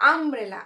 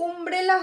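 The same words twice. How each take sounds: First: আমব্রেলা opening on an open ah sound, um-brela; correct pronunciation. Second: উমব্রেলা with an oo vowel at the start, oom-brela; wrong pronunciation. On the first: Teacher showing students the right sound, আমব্রেলা with ah. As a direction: begin আমব্রেলা with a short open a. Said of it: "আ হচ্ছে". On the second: Teacher showing students the wrong sound, উমব্রেলা with oo. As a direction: say উমব্রেলা opening on oo. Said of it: "হচ্ছে না". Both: Shown as a demonstration.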